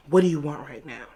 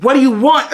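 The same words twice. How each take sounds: First: Said in the usual way. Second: Loud, raised-pitch insistent question; forceful demand. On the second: Retold or imitated. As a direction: demand it loudly, retelling the man. Repeated demand, escalating.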